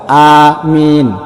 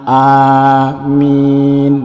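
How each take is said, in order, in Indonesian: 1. Vokal pertama panjang, yang kedua pendek. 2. Vokal pertama dan kedua keduanya panjang. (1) "kalau misalkan huruf alifnya itu panjang dan mimnya itu pendek" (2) "kalau alifnya panjang, mimnya panjang, ini baru benar"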